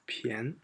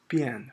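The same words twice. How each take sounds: First: The syllable is said with the second tone. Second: The syllable is said without the second tone. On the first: This is the reading used in the word for cheap. "that should be second tone" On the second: This is the reading used in the other three words. "This is 便 for all other three"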